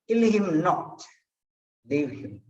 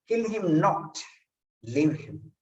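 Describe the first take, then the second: The two takes are said the same way.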